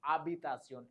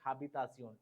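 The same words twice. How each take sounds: First: The word begins with no H sound. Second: The word begins with an audible H sound. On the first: The speaker calls it right. "it is habitación. H will be silent" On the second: The speaker calls it wrong. "it is not habitación"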